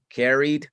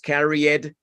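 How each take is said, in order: First: The e in the ending is silent. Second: The e in the ending is pronounced. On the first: The speaker calls it right. "la E del E D no suena" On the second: The speaker calls it wrong. "no es carried"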